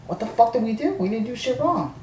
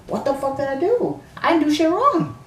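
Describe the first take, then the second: First: Higher, outraged disbelief; indignant protest. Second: Furious protest. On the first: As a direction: protest your innocence, offended. Arguing with worker about leaving. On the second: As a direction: yell your innocence at the worker. Escalating argument, repeat louder. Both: Retold or imitated.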